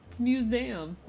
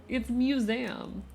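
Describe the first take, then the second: The two takes are said the same way.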